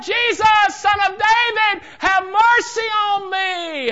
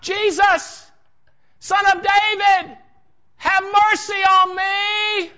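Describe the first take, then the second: First: Very high, full-force shout; crying out all the more. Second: High, drawn-out shout; crying out. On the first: Beggar defies the shushing crowd, even more desperate shout. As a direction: cry out even harder, stretching the final plea. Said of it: "He cried out so much the more". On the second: Blind beggar cries out to Jesus as he passes, loud pleading shout. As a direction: call out slowly at full voice, pleading from afar. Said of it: "He cried out". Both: Acted.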